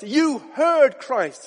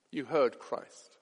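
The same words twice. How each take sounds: First: "heard" stretched and lifted high and loud; preacher's slow, forceful "You heard Christ"; slow emphatic proclamation. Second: "heard" said low and hushed; reflective, lower echo; soft, slow repeat. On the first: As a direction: drive home "heard" slowly. Same words repeated after. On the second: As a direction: let "You heard Christ" sink in quietly. Same words repeated softly. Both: Acted.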